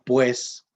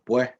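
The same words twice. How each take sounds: First: The final s is fully pronounced. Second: The final s is aspirated like an h. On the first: This is not how Nicaraguans say it. "No dicen pues" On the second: This is how Nicaraguans say it. "los nicas aspiran la S, es decir, convierten la S en J"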